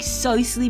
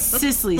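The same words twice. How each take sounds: First: The name is said the Bajan family way. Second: The name is said the standard way. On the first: The speaker calls it wrong. "I grew up calling she Cicely because that's the way my parents call she" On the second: The speaker calls it right. "But it's Cicely"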